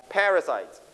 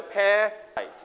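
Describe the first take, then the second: First: Said in the usual way. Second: "Parasite" with PA pushed higher and held apart from the rest; stress on first syllable. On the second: Shown as a demonstration. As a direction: hit the opening PA of "Parasite" hard, then break. (เน้นพยางค์แรกของคำว่า "Parasite" ให้เสียงสูงเด่น) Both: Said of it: "first syllable".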